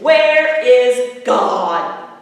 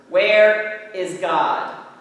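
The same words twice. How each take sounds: First: It is said very loudly, voice raised most. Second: It is said louder and sterner.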